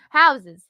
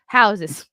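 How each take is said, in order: First: Laughing on houses, high and loud. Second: Said in the usual way. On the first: Real, not acted.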